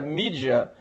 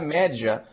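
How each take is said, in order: First: The first vowel sounds like 'ee'. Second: The first vowel sounds like 'eh'. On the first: It follows the English pronunciation. "a gente pronuncia mídia é, por nossa submissão ao inglês" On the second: It follows the original Latin pronunciation. "em latim se pronuncia média"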